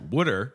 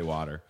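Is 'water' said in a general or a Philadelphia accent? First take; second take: Philadelphia; general. First: It is said with a Philadelphia accent. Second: It is said with a general accent. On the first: This is how people in Philadelphia say it. "I grew up saying "water" because that's like what people in Philadelphia say" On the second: This is how most other people say it. "I made a conscious effort to change, and now I say water"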